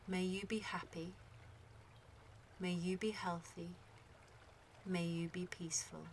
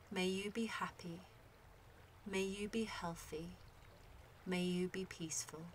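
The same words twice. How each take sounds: The two takes are said the same way.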